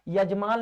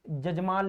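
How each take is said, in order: First: The word begins with a Y sound. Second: The word begins with a J sound. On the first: This is the Hindi form. "यजमान लिखते हैं हम लोग" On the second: This is the Nagpuri form. "यहाँ जजमान लिखाता है"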